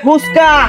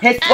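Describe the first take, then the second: First: The first vowel is a 'u' sound. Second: The first vowel is an 'e' sound. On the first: The speaker calls it right. "ওটা হবে ফুচকা" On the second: The speaker calls it wrong. "ওটা ফেসকা হবে না"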